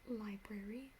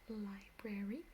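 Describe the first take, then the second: No difference in how they are said.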